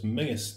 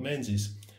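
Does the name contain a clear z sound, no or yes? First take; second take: no; yes. First: The name is said with no z sound. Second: The name is said with a z sound. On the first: The speaker calls it right. "So it's Mingus" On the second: The speaker calls it wrong. "not Menzies"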